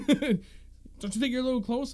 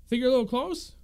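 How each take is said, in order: First: Higher, slow, mocking question; annoyed homeowner. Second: Higher, louder pointed question; annoyed homeowner. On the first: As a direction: draw it out like a pushy neighbor. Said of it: "I'm like". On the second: Retold or imitated. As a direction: needle the fisherman. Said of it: "He's like".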